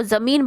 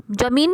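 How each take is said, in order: First: ज़मीन with a clear z sound at the start; z with nukta. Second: जमीन with a plain j sound, not z; plain j, no nukta. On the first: Teacher showing pupils the right way, with a z sound. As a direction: say ज़मीन with z as in zoo. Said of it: "जमीन नहीं बोलते को, ज़मीन बोलते हैं". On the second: Teacher showing pupils the wrong way, plain j. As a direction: say जमीन with a hard j as in jam. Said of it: "जमीन नहीं बोलते". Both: Shown as a demonstration.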